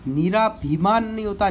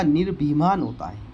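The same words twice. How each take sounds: First: निराभिमान with long "raa"; long ā inside निराभिमान; wrong form. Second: Said in the usual way. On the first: Shown as a demonstration. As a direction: stretch the rā in निराभिमान, as a mistake to reject.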